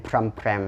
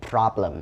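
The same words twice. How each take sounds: First: "พรำแพรม", problem squashed into pram-praem; mispronounced problem. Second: "problem" as PROB-lum, B and L clear; correct pronunciation of problem. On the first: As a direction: say "พรำแพรม" with the B and L lost. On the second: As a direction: say "problem" with both syllables distinct, PROB-lum. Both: Shown as a demonstration. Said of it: "บ่แม่นพรำแพรมเนาะ".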